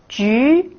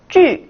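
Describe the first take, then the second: First: The pitch rises from middle to high. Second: The pitch falls sharply from high to low.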